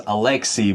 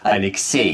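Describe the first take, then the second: First: The stress is not on the last syllable. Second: The stress is on the last syllable. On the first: This is the English pronunciation. "In English, this name is pronounced as Alexei, but the stress is actually different" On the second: This is the Russian pronunciation. "In Russian, the last syllable is stressed, so it's Alexei"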